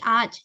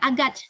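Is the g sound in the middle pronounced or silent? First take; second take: silent; pronounced. First: The g is silent and the first vowel lengthens. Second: A hard g sound is pronounced in the middle. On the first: The speaker calls it right. "tapi aj. Karena di sini Yumuşak G... A-nya seakan-akan kayak lebih panjang" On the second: The speaker calls it wrong. "Bukan agaj"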